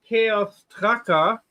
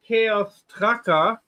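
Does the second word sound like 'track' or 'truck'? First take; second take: track; track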